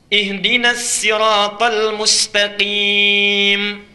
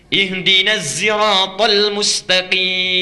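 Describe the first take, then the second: First: Siratal begins with a plain, light s sound. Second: Siratal begins with a voiced z sound. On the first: "Ada bisa pakai sin riwayat Qalun" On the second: "pakai zai bisanya"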